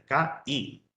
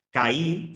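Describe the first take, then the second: First: "K-I" as two separate syllables, ka and i; split into syllables. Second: Said in the usual way. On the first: Shown as a demonstration. Teacher showing students the hiatus, split into syllables. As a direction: break "K-I" apart between the two vowels. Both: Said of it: "son dos sílabas diferentes".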